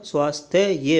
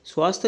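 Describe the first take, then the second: First: स्वास्थ्य ये split as svaas-the-ye; correct form. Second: स्वास्थ्य cut short as "svaast"; wrong form. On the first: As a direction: sound out the final "ya" in स्वास्थ्य ये. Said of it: "होता है". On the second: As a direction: drop the final "ya" of स्वास्थ्य. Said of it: "नहीं होता". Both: Shown as a demonstration.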